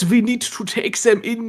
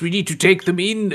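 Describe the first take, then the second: First: It is said with a put-on German accent. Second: It is said in the speaker's ordinary accent.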